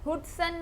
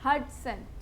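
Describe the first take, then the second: First: The first vowel sounds like 'oo'. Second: The first vowel sounds like 'uh'. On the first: The speaker calls it wrong. "हुडसन नहीं please" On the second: The speaker calls it right.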